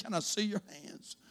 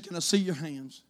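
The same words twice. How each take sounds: First: A frail woman asking quietly; sick lady. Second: Soft, lower sick woman's voice; a frail woman asking quietly; sick lady. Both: Retold or imitated. Lightly voiced sick lady asking the priest, soft.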